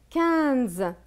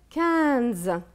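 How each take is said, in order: The two takes are said the same way.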